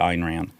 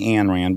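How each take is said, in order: First: The first name sounds like 'Ayn'. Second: The first name sounds like 'Anne'. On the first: This way sounds pretentious. The speaker calls it right. "too pretentious to say Ayn Rand" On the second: This is the casual, everyday way of saying it. The speaker calls it wrong. "I say Ayn Rand"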